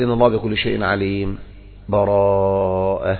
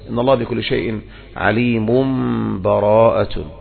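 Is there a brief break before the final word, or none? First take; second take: break; none. First: A brief silent break without breath before the last word. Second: The last word joins on with no break. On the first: "هذا السكت ما في نفس" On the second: "أو يصلها"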